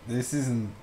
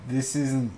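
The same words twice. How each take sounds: The two takes are said the same way.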